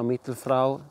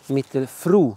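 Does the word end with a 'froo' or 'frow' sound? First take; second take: frow; froo. First: The last syllable sounds like 'frow'. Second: The last syllable sounds like 'froo'. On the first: The speaker calls it wrong. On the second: The speaker calls it right.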